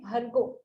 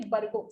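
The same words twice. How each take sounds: First: "Bhargo" with aspirated bh, breathy release; correct Bhargo. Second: "Bargo" with plain b, no aspiration; wrong Bargo. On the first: Teacher showing the right "Bhargo" with aspirated bh. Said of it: "We say". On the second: Teacher showing the southern mistake, plain b in "Bargo". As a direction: say "Bargo" with a flat unaspirated b. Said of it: "and some say". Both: Shown as a demonstration.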